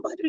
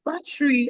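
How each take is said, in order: First: Put-on "battery" in an Igbo accent, all three syllables sounded; high-pitched mimicked "battery" with Igbo vowels. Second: "battery" squeezed to two syllables, as batch-ree; high-pitched mock correction, "battery" said as bat-tree; corrected battery. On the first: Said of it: "that with the Igbo accent". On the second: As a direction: imitate the corrected "battery", middle vowel dropped. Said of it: "It's not battery".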